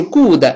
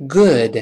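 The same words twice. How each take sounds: First: Good as "goo-de" with a tight long "u"; overdone wrong good, pitched up; mispronounced good. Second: Good with short, relaxed "uh"-like vowel; correct short vowel. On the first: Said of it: "不是good". (把 good 错读成“咕的”) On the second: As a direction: say good lightly rounded, no added vowel. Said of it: "是good". (good 短音正确读法) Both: Shown as a demonstration.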